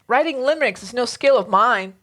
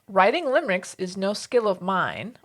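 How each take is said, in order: First: It is read dramatically, in slam poetry style. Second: It is read in a plain, undramatic way.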